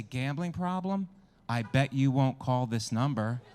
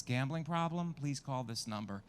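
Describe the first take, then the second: First: Slow, teasing Gambling problem, then a louder I bet you won't; taunting dare. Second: Said in the usual way. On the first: Shown as a demonstration. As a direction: goad them into taking the bet. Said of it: "It should at least say". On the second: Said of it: "It says".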